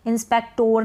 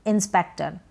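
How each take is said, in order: First: इंस्पेक्टोर ending in a full "tor"; the version to avoid, इंस्पेक्टोर with "or"; गलत उच्चारण इंस्पेक्टोर; wrong pronunciation. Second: इंस्पेक्टर ending in a short neutral "ter"; सही उच्चारण इंस्पेक्टर; correct pronunciation. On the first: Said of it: "नहीं पढ़ेंगे". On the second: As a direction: end इंस्पेक्टर with a schwa. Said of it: "इंस्पेक्टोर नहीं पढ़ेंगे". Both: Shown as a demonstration.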